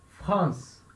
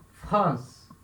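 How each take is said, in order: Both takes have the same delivery.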